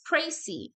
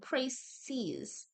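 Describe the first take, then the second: First: The word ends without an s sound. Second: The word ends with an s sound. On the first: There is only one summary. "say it like this" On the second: There is more than one summary. "the S is only pronounced if the word is plural"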